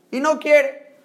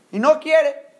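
Both takes have the same delivery.

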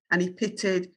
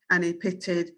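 The two takes are said the same way.

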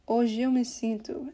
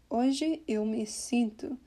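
First: "Hoje eu me sinto" with "Hoje eu" run into one; vowels blended. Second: "Hoje eu me sinto" slowly, word by word; words cut apart. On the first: Teacher showing how it is sung, "Hoje eu me sinto" blended together. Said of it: "blend that perfectly". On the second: Teacher showing the weird unblended way, "Hoje eu me sinto" slowly cut apart. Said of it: "kind of cut the words apart like that". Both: Shown as a demonstration.

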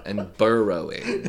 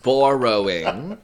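First: Burrowing with bur vowel like burr, slow; pron contrast. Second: Borrowing with open bor vowel, slow; pron contrast. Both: Shown as a demonstration. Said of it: "No, they don't".

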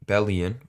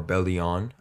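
First: "[name]" ending in an unstressed "-yun"; first pronunciation. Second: "[name]" ending in a full "-on"; alternative pronunciation. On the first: Podcast host introduces the artist, trying "[name]" as BELL-ee-un. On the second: Podcast host unsure of the name, trying "[name]" as bell-ee-AHN. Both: Shown as a demonstration. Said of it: "I don't know how to say it".

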